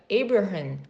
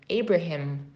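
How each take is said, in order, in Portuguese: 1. O nome é pronunciado com sotaque inglês. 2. O nome é pronunciado com sotaque inglês.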